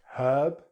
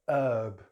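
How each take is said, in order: First: It is said with a British accent. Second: It is said with an American accent. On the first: "in British English" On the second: "then American English"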